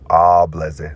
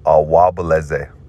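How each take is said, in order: First: No w sound is heard near the start. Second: A w sound is heard near the start. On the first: "They drop the W" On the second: "instead of awableze"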